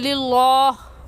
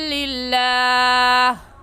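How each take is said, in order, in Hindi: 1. L की आवाज़ भारी और मोटी है। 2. L की आवाज़ हल्की और पतली है। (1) "मोटा करना गलत होगा" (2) "सही है"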